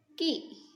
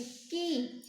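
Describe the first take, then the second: First: की said briefly, with a short i; short, soft i. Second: की with the ee drawn out; long, strong ee. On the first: Teacher reads k with small i, short and unstretched. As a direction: keep the vowel in की short. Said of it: "धीमे स्वर में". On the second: Teacher reads k with big ee, long and drawn out. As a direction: stretch the vowel in की long. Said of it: "लंबा और तेज होता है". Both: Shown as a demonstration.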